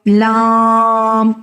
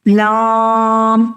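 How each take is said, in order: No difference in how they are said.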